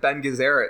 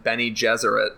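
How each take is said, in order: First: The first part is said as one syllable. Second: The first part is said as two syllables. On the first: This is the pronunciation imagined while reading the book. The speaker calls it right. "I think Ben Gesserit sounds better" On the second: This is the pronunciation used in the movie. The speaker calls it wrong. "than Benny Gesserit"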